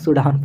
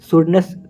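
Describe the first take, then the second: First: The word ends with an 'an' sound. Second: The word ends with a 'ness' sound. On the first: The speaker calls it right. "सूडान पढ़ना है" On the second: The speaker calls it wrong. "सुडनेस पढ़ेंगे बहुत लोग"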